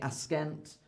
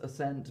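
First: A k sound follows the s. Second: No k sound follows the s. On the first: The speaker calls it wrong. "we don't say askent" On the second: The speaker calls it right. "When these are together, it's usually silent"

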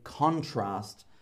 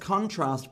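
First: The stress is on the first syllable. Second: The stress is on the second syllable. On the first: It is a noun: a difference. "there is a contrast" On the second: It is a verb: to compare things. "we change the noun into a verb by putting stress on the second half"

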